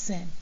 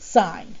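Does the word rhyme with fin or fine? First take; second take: fin; fine. First: The vowel is short, rhyming with fin. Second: The vowel is long, rhyming with fine. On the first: The speaker calls it wrong. "It's not sin" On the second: The speaker calls it right. "It is sine"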